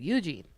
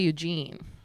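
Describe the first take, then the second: First: The stress is on the first syllable. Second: The stress is on the second syllable. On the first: "you gotta put the emphasis on the U" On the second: "I usually say Eugene, like more emphasis on the gene"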